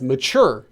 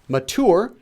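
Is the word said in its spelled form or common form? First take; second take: common; spelled. First: It is pronounced in its everyday altered form. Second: It is pronounced closely following its spelling. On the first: "People pronounce this as mature" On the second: "it's originally written as mature"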